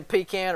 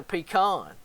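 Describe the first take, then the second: First: "pecan" said as PEE-can; regional pronunciation. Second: "pecan" said as pee-KAHN; other regional pronunciation. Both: Shown as a demonstration. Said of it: "do you say pecan or pecan".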